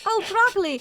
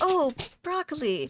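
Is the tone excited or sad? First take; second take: excited; sad. First: It sounds cheerful and excited. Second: It sounds sad and deflated.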